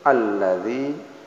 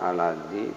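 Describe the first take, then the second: First: The l sound is held and doubled. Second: The l sound is short and single. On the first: The speaker calls it right. "ini ada tahzid ... tapi alladzi" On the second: The speaker calls it wrong. "bukan alladzi"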